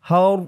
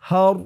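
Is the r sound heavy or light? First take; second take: heavy; heavy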